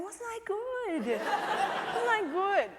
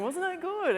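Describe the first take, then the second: First: High, slow, drawn-out singsong; self-pleased child. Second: High, loud mock self-congratulation; imagine a grown star boasting like a child; Brad Pitt. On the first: Retold or imitated. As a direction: imitate a little boy fishing for praise. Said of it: "walking around at lunchtime going". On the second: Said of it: "like Brad Pitt, you imagine him going".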